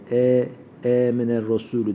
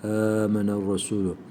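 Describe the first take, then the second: First: The first vowel sounds like a plain 'e'. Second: The first vowel sounds like a soft open 'a'. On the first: The speaker calls it wrong. "Mesela e miner Resulü değil" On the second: The speaker calls it right. "Yumuşak bir şekilde he"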